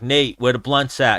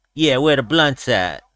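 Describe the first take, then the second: First: Said in the usual way. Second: Slow, lightly imitated fighter's drawl; Nate Diaz. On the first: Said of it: "I was like". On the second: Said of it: "And he went".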